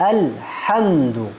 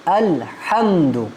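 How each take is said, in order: No difference in how they are said.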